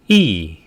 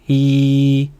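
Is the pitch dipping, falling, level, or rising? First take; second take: falling; level. First: The pitch drops sharply from high. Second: The pitch stays high and level. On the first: "사성은 일성 높이에서 때려줍니다" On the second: "1성은 평평하게 발성하면 돼요"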